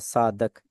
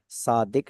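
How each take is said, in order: First: The second syllable has an 'a' vowel. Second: The second syllable has an 'i' vowel. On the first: It means putting a mark of truthfulness. The speaker calls it wrong. "कोई सादक पढ़ेगा" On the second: It means one who speaks the truth. The speaker calls it right. "सादिक लफ्ज होता है"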